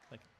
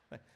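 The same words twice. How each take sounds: The two takes are said the same way.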